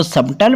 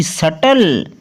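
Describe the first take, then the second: First: सबटल with the B sounded before T; गलत उच्चारण. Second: सटल with no B, long final L; सही उच्चारण. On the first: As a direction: close the lips for B in सबटल. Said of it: "कुछ लोग इसको सबटल पढ़ते हैं". (सबटल में 'ब' बोलकर गलत उच्चारण) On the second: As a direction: skip the B in सटल, go straight to T. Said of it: "वो प्रोनाउंसिएशन गलत". (सटल में B साइलेंट, सीधे 'ट') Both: Shown as a demonstration.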